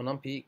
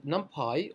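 First: "NumPy" with an ee ending; NumPy as num-pee. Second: "NumPy" with a pie ending. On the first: Tutor offering the alternative package name, NumPy said num-pee. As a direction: pronounce "NumPy" num-pee, like the letter P at the end. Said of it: "as some people pronounce it". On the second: Tutor naming the bundled package for learners, NumPy said num-pie. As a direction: pronounce "NumPy" num-PIE, long I at the end. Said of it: "or as some people pronounce it". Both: Shown as a demonstration.

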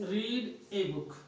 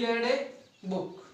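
First: "read" said with a long ee, like reed; "read" rhyming with need; present-tense pronunciation. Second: "read" said with a short e, like red; "read" pronounced like the colour red; past-tense pronunciation. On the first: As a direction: say "read" as REED, drawn out slowly. Present-tense reading of read, contrasted. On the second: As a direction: say "read" as RED, to rhyme with bed. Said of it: "इसका उच्चारण क्या करेंगे". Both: Shown as a demonstration.

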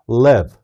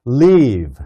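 First: "Live" short and lax, low in the mouth. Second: "Live" said like "leave", with a long tense "ee"; leave sound. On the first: Teacher saying "Live" meaning to reside, short and relaxed. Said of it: "살다". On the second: Teacher saying "Live" as "leave", meaning to depart. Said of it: "떠나다". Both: Shown as a demonstration.

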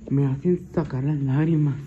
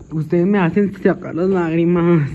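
First: Said in the usual way. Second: Loud wail, pretending to cry; mock tearful wail. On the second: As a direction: wail loudly as if tears are coming. (lamento fuerte, fingiendo llanto) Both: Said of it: "Yo quería llorar".

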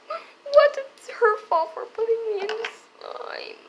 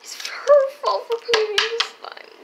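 First: High whiny blaming voice; high kid voice. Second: Put-on high whiny kid. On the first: Pretend. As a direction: whine the blame. Toy brother blames sister. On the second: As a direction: insist it, whining higher. Repeated louder.

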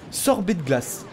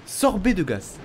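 Both takes have the same delivery.

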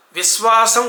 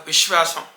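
First: విశ్వాసం as vis-WAA-sam, s for శ; mispronounced plain s. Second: విశ్వాసం with clear sh, vish-waasam; settled corrective విశ్వాసం with sh; correct sha. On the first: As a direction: slowly show faulty విశ్వాసం with hissed s. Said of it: "కాదు". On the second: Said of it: "సరిగ్గా పలకాలి". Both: Shown as a demonstration.

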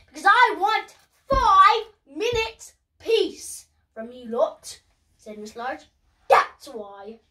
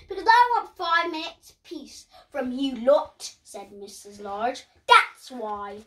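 First: Fed-up Mum. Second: Firm Mum voice. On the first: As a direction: lay it down firmly to the kids. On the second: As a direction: tell the kids off a little. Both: Acted. Mum answers the children sharply.

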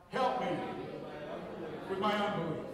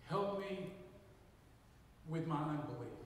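First: Congregation repeats "Help me with my unbelief" loudly; loud call and response. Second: Said in the usual way. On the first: Real, not acted. Congregation echoing the pastor, loud and together. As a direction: shout "Help me with my unbelief" back to the preacher. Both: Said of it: "Would you repeat that after me?".

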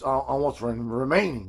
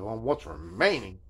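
First: Said in the usual way. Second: On what's remaining drawn out slow, each word leaned on; quoting the seller's exact words slowly; slow pointed repeat. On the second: Retold or imitated. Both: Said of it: "is what he said".

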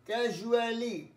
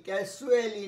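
First: ক্যাজুয়ালি said with a clear j, "kejuali"; ক্যাজুয়ালি with a crisp j sound; correct pronunciation. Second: ক্যাজুয়ালি with a sibilant s in place of the j sound; wrong pronunciation. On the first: Teacher models the right ক্যাজুয়ালি for students, clear j. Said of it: "দেখো উচ্চারণটা". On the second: Teacher shows students the wrong way to say ক্যাজুয়ালি, with an s sound. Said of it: "ক্যাজুয়ালি নয়". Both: Shown as a demonstration.

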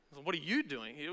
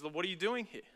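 First: Soft question leaning on YOU; emphasis lands on YOU, said softly; stress on YOU. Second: Emphasis lands on DOING, voice falling after it; stress on DOING. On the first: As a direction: make YOU the point of the question. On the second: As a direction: question leaning on DOING. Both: Shown as a demonstration. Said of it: "We don't know how God emphasized".

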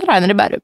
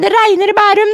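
First: Imitating grandmother. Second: "regner" stressed, high granny voice; first "det regner i Bærum" as a fussing high grandma; imitating grandmother. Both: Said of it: "Mormor sier".

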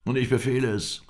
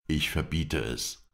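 First: High, loud angry order; angry command. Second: Slow, deliberate command in the usual pitch; firm prohibition. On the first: Old sheikh rises to overrule the guest, angry. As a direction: overrule him in a raised voice. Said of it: "indem er sich zornig erhob". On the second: Captive's protector forbids the punishment, firm and slow. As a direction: forbid it without raising the voice. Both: A narrator's reading.

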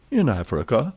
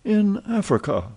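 First: Said in the usual way. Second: Wide-eyed marvel at being in Africa; amazed repeat. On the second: Acted. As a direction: voice jumps high in wonder. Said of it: "repeated Passepartout".

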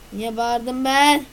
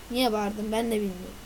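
First: Drawn-out, louder "Niye bağırdım ben?" with ben stretched; slow, louder repeat. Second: Said in the usual way. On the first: Shown as a demonstration. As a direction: repeat it slowly and with more force. (yavaş ve yüksek sesle tekrar)

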